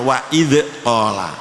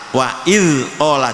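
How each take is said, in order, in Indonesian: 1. Konsonan setelah i bunyi d. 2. Konsonan setelah i bunyinya mirip z.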